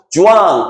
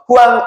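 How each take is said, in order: First: The name begins with a J sound. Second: The name begins with an H sound. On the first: This is the English-style pronunciation. "영어식 발음" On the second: This is the pronunciation used in the name's own country. "그 나라 사람 발음대로 불러주는 게 좋잖아요"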